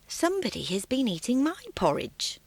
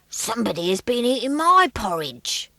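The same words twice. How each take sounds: First: It is said in a quiet, gentle voice. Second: It is said in a deep, growly voice.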